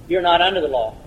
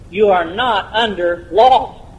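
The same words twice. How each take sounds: First: "You're not under the law" in one quick, casual run; quick and glib. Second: "You are not under law" word by word, very slowly; slow and emphatic. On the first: Preacher states a simple answer too glibly to sink in, quick and offhand. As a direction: toss off "You're not under the law" lightly, without pauses. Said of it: "I can say that so fast and so glib". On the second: Preacher makes the congregation absorb it, slow, deliberate emphasis. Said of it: "let that soak in for a moment". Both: Real, not acted.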